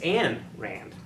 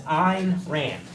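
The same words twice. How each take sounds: First: The first name sounds like Anne. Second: The first name does not sound like Anne. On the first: The speaker calls it right. "the correct way to pronounce it is this, is Anne" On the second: The speaker calls it wrong. "this the way you pronounce it is Ayn Rand. That's what I thought"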